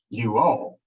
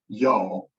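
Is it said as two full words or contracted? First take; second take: two words; contracted. First: It is said as two separate full words. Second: It is run together into one contracted word. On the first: "only we don't say it quite that way" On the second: "We say y'all"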